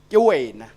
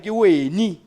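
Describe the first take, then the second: First: The last word ends with an 'a' vowel. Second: The last word ends with an 'i' vowel. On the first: This is the standard form of the language. "You in Sepedi" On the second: This is the form used in a regional dialect. "when you're moving more towards the, your Beggarsford area"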